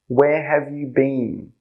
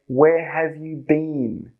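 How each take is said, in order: The two takes are said the same way.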